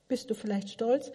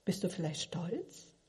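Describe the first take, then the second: First: Said in the usual way. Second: Quiet, gentle ask; hushed, searching question; soft probing question. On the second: Shown as a demonstration. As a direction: murmur the question softly.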